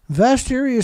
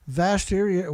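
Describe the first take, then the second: First: VAST punched high and loud; emphatic headline read. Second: Said in the usual way. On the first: Acted.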